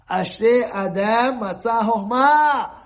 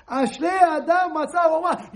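First: "Ashrei Adam Matzah Chochmah" intoned slowly and deliberately, each word weighed; slow solemn recitation. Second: "Ashrei Adam Matzah Chochmah" proclaimed loud and high, stress on "Adam"; proclaimed verse. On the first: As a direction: recite the verse slowly like scripture. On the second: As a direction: preach the verse with full force. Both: Shown as a demonstration. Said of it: "The Torah is full of wisdom".

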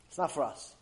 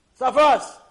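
First: Said in the usual way. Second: Loud dismissal. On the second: Acted. Friends brush him off.

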